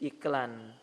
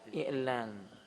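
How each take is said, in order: First: The middle consonant is a plain K sound. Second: The middle consonant is a deep throat sound. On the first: The speaker calls it wrong. "orang Indonesia itu sulit mengucapkan ain jadi k" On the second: The speaker calls it right. "Yang benar apa? Ya, i'lan"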